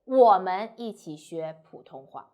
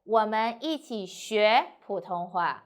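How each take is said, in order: First: The stress falls on the word 我们. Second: The stress falls on the word 学. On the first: We learn it, not they. "if you emphasize 我们 we, not they" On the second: Nothing in particular is singled out. "you need to stress the verb 学"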